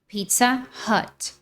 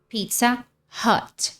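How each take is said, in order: First: It is said with American English sounds. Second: The same.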